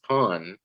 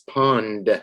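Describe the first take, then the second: First: The final D sound is dropped. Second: The final D sound is clearly pronounced. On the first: The speaker calls it wrong. "All I hear is pond" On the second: The speaker calls it right. "It ends in a D"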